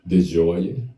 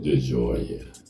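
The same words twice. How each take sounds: First: The name is said in a higher, flourished voice. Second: The name is said in a lower, dropped voice. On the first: "You gotta add the French, Spanish, and all that" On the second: "drop my voice a little bit?"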